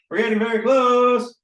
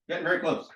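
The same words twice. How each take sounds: First: Higher, louder, stretched on "close"; playful excitement. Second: Said in the usual way. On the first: Real, not acted. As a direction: sing out "close" long and loud. Playful repeated encouragement, louder take.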